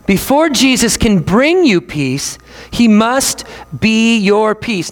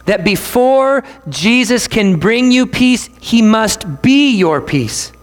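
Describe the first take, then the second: First: Repeated slowly for weight; slow preacher emphasis; slower still, emphatic. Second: Slow, weighty phrasing; slow preacher emphasis; slow and emphatic. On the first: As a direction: hammer it home slowly. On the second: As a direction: lay each word down deliberately. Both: Shown as a demonstration. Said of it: "we have to say this".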